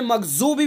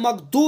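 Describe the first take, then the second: First: The middle consonant is a z sound. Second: The middle consonant is a plain d sound. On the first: "मखजूबी भी नहीं पढ़ना है" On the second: "मखदू भी पढ़ देते हैं"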